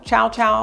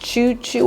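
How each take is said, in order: First: The vowel sounds like "ow" in both syllables. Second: The vowel sounds like "oo" in both syllables. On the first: The speaker calls it right. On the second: The speaker calls it wrong.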